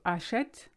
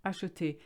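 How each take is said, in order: First: "achète", open È sound, French style. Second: "acheter", closed É at the end; French acheter. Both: Shown as a demonstration. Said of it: "So achète, acheter".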